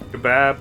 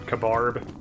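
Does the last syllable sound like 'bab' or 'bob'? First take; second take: bab; bob. First: The last vowel sounds like the a in cat. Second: The last vowel sounds like the o in Bob. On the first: The speaker calls it right. "the quote-unquote correct way" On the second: The speaker calls it wrong.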